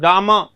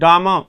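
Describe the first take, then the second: First: The final r sound is almost silent. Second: The final r sound is almost silent.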